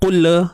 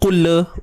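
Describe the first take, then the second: Both takes have the same delivery.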